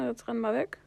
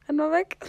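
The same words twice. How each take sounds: First: Said in the usual way. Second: Louder, higher urgent call; urgent shout. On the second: Real, not acted. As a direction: yell at him to run away. Repeated urgent command to flee.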